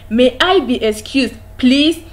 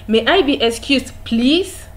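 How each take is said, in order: No difference in how they are said.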